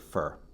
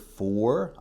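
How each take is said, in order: First: The word has a short, weak vowel. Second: The word has a full, clear vowel. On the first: "I'll say fur" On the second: "The word for"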